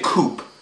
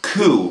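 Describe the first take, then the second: First: The word ends with a pronounced P sound. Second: The word ends in a vowel, no P sound. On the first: The speaker calls it wrong. "we don't say coop" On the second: The speaker calls it right. "We say it coup"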